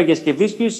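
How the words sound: The name is said with a Greek-style stress pattern. The speaker calls it wrong. "όταν πήγα Λιθουανία και είπα Γιασκεβίσκιους, γελούσαν. Δεν μεταφράζεται έτσι"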